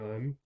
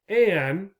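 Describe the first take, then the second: First: The word is said short and reduced. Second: The word is said fuller and longer. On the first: This is the everyday casual form. "most of the time you will hear people saying un" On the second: This form adds stress or suits public speaking. "if we want to have stress or we are doing public speaking"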